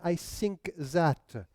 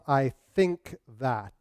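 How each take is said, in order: First: The th sounds become s and z. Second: The th sounds are made with the tongue between the teeth. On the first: "En France ... mais I think that" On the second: "les consonnes T H"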